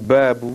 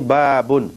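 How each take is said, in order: First: The word ends with an added -u vowel. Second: The word ends with an added -un sound. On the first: "ada yang mengatakan babu" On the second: "Ada yang kata ini babun"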